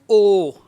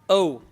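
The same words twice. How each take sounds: First: The vowel is flat and does not glide. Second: The vowel is curvy and glides. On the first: The speaker calls it wrong. "What we do, we pronounce O" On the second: The speaker calls it right. "curvy sound"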